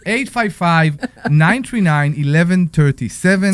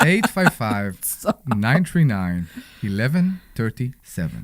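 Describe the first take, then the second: First: It is said in a plain voice. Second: It is said in a sultry, seductive voice.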